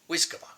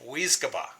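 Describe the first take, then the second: First: The word is said quickly. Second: The word is said at a normal pace.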